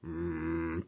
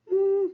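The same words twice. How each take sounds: First: The voice is deep and low in pitch. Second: The voice is high in pitch. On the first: "저음이라고 얘기하는 건 뭐냐면 바리톤" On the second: "고음은 소프라노"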